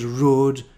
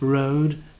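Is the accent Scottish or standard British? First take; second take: Scottish; standard British. First: It is said in a Scottish accent. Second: It is said in a standard British accent. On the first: "Scottish pronunciation is road" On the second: "Instead of road"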